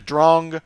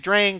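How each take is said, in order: First: The vowel is a rounded 'aw' sound. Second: The vowel is an open 'ah' sound. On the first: It follows the original German word. "a German word taken from a piece of classical music" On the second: It is how most players say it. "most people would say Drang"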